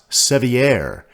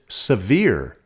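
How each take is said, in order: First: The name is said the French way. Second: The name is said the local way. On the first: This is how French speakers would say it. "not Sevier, as the French would pronounce it" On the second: This is how people living there say it. "the locals pronounce it Sevier"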